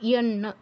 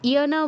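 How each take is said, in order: First: The n sound is held long and doubled. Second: The n sound is short and single. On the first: The speaker calls it right. "দুটো ন উচ্চারণ করতে হবে" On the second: The speaker calls it wrong. "ইয়ানা বললে হবে না"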